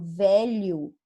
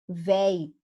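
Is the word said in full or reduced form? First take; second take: full; reduced. First: The word is said in its full form. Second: The word is shortened to a reduced form.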